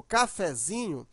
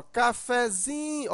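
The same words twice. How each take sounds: First: Said in the usual way. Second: "cafezinho" called out, ZI held long; calling the word out. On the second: Shown as a demonstration. Teacher demonstrating the stressed syllable to pupils, "cafezinho" called out with long ZI. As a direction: slowly call "cafezinho", stretching the ZI. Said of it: "Chamando a palavra".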